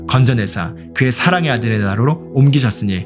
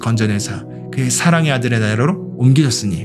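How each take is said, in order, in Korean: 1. 크고 힘차게 포효하듯 외칩니다. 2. 보통 크기의 목소리로 소리 내어 말합니다. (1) "더 이렇게 큰 소리로 사자처럼 포효하는 건데요" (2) "이렇게 이제 소리내서 말하는 겁니다"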